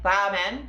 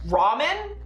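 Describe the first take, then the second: First: It starts with a soft sound between R and L. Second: It starts with a hard English R sound. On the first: "ramen is it in Japanese, because it's, like, halfway between an R and an L" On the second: "ramen is how you say it in English"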